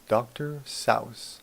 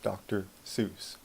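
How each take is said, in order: First: The name is said with a German pronunciation. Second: The name is said with an American pronunciation. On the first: "That's the German pronunciation" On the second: "Americans pronounce it Seuss"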